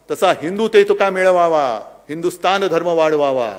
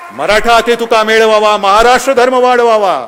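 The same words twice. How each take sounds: First: Said in the usual way. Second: Loud, high ringing chant; chanted, proclaim the verse to the crowd. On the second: Real, not acted. (chanted, घोषणेसारखे गर्जत म्हटलेले काव्य)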